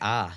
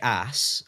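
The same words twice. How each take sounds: First: It is said with a British pronunciation. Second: It is said with an American pronunciation. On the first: This is the speaker's own way of saying it. "we say ass" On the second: This is the listener's way of saying it. "you say ass"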